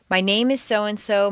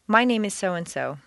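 First: The word name carries the stress. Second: The word name carries no special stress. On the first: More personal information is about to follow. The speaker calls it wrong. "If you stress name" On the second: Only the name is being given. The speaker calls it right. "stay with the standard"

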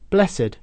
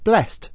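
First: The word is said as two syllables. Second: The word is said as one syllable. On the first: It is an adjective meaning holy. "an adjective with the same spelling, but a different pronunciation" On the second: It is the past tense of the verb. "The past tense of to bless is blessed"

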